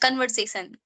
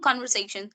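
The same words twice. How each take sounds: First: The ending is said without an sh sound. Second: The ending is said with an sh sound. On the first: "all learners pronounce uh, conversation, conversation like that" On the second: "like sure sound"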